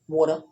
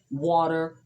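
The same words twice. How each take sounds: First: It is said in a thick New York accent. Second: It is said without a New York accent.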